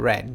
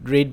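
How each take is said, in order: First: The vowel is short, like 'red'. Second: The vowel is long, like 'reed'. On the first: The speaker calls it right. "Second এবং third ফর্মের উচ্চারণটা কিন্তু হবে রেড" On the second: The speaker calls it wrong. "রিড ভার্বটাকে আমরা সবাই রিড রিড রিড বলে থাকি"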